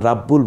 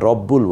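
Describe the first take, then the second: First: The first vowel is a clear, open 'a'. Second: The first vowel is a dark, 'o'-like sound. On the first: The speaker calls it wrong. "রাব্বুল বলছি না" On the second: The speaker calls it right. "রব্বুল বলছি"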